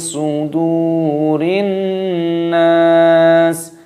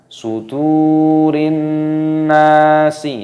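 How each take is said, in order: First: The last word stops on a consonant. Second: The last word ends with an added vowel. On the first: The speaker calls it right. "Jadi di sini dimatikan. Kenapa? Ada tanda waqaf berhenti" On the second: The speaker calls it wrong. "Jangan dibaca sudurin nasi, ya itu salah"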